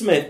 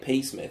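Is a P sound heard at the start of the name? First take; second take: No; Yes. First: The name starts with no P sound. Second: The name starts with a sounded P. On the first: The speaker calls it right. "It's not, it's Smith" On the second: The speaker calls it wrong. "I can't read it without sounding it P. Smith"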